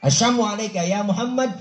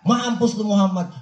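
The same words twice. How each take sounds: First: Mock sneering curse. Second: Mock rude curse. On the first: The unbeliever cursing the Prophet, sneering. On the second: The unbeliever translated into street talk, rude. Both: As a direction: curse pitched higher. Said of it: "Kalau kita dikata begitu".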